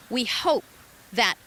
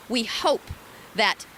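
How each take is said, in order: Both takes have the same delivery.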